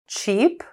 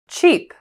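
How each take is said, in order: First: The pitch rises at the end. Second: The pitch falls at the end.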